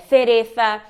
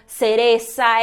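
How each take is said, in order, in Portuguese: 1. O C e o Z soam como TH. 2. O C e o Z soam como S. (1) "língua entre os dentes" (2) "Na América, o som de S, de Z e de C seguido de I e de E é tudo a mesma coisa"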